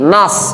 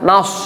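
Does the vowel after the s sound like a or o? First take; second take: a; o. First: The vowel is an open a, lips unrounded. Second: The vowel is rounded toward o, lips pushed forward. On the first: The speaker calls it right. "Jadi nas" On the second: The speaker calls it wrong. "bukan nas"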